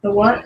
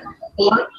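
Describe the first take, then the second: First: Said in the usual way. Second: Higher, rising disbelief; incredulous. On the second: Real, not acted. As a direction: ask again in disbelief. Asking again, incredulous.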